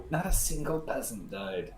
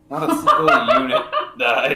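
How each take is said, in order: First: Said in the usual way. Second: Loud, laughing through the correction. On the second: Real, not acted. Gamer corrects his own boast, laughing loudly. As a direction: crack up mid-sentence on the word single. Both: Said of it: "Sorry, three hundred and twenty peasants died".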